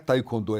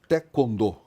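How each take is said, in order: First: The first syllable is read as it is spelled. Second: The first syllable follows the Korean pronunciation. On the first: This is the early, popular way of saying it. The speaker calls it wrong. "não é taekwondo" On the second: This is how Koreans say it. The speaker calls it right. "é taekwondo"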